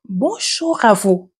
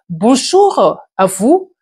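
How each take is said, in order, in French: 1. Elle est dite à voix basse, très doucement. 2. Elle est dite à pleine voix, volume normal. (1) "À voix basse" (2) "je suis en train de parler à pleine voix"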